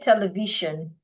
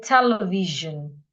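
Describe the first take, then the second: First: The ending sounds like shun. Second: The ending sounds like zhun. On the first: The speaker calls it wrong. "We will not say television" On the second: The speaker calls it right. "we will say television"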